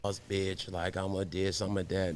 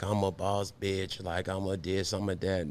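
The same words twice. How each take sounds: First: Quieter mocking brag; hushed imitation of bragging; mock boss chick. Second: Soft mocking brag; quietly imitating a boss chick. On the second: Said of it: "that aesthetic of, like".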